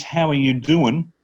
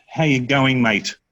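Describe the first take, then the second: First: Said in the usual way. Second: Quick Australian greeting. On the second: Shown as a demonstration. Tutor replacing the American greeting with Australian, quick Aussie accent. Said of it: "we say it quite quickly".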